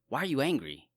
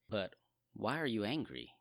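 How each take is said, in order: First: It is said in a harsh, stern tone. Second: It is said in a gentle, compassionate tone.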